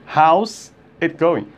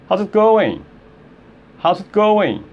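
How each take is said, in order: First: Slow, with a break after HOW'S; slowed contraction. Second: Quick, contracted, higher pitch; fast demo. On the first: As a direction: separate "How's" from "it going". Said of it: "você pode dizer assim, seria mais rápido". (contração dita devagar, separada) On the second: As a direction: run the words together briskly. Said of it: "seria mais rápido". (rápido, emendando as palavras) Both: Shown as a demonstration.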